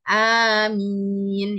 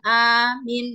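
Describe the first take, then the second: First: Both vowels are lengthened, two beats each. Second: Only the first vowel is lengthened. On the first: It means please answer our prayer. The speaker calls it right. "A-nya panjang, mimnya juga panjang" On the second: It means asking for protection and security. The speaker calls it wrong. "alifnya panjang, mimnya pendek"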